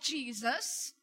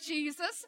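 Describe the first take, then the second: First: The name is said in a solemn preacher voice. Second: The name is said in a plain everyday voice.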